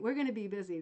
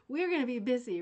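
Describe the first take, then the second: First: Said in the usual way. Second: Laughing. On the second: Real, not acted. Delighted by the ideas.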